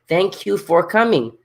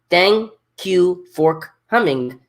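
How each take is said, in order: First: It is said faster, run together. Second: It is said slowly, word by word.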